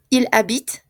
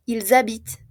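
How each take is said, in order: First: Il habite with l running into the vowel, no z sound; no liaison, silent e. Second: Ils habitent linked with a z sound, ent silent; z liaison. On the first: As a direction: end habite on t, straight after Il. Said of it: "tampoco se pronuncia". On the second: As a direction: buzz a z from Ils into habitent, ending on t. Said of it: "sí hacemos la liaison". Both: Shown as a demonstration.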